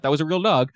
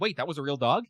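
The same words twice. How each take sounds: First: Said in the usual way. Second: Softly voiced question on "real dog"; imitating surprised listeners. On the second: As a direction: ask "that was a real dog" as a hushed double-take. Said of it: "people listen to this, they're like".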